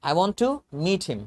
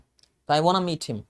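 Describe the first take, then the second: First: Want to is said as two full words. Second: Want to is reduced to wanna.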